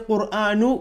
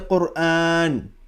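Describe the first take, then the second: First: The word ends with an added u vowel. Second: The word ends on a bare, silent n. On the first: The speaker calls it wrong. "we don't say Quranu" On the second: The speaker calls it right. "we say Quran"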